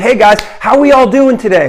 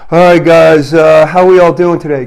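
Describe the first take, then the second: First: It is said brightly, with high energy. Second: It is said flatly, with low energy.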